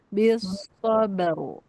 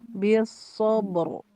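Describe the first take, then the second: First: The b is light and thin, then the r is thick. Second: The b is heavy and thick before the r. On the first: The speaker calls it right. "B-nya itu kayak kayak tipisin dulu baru ro-nya tebelin" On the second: The speaker calls it wrong. "kalau tebal baknya gini"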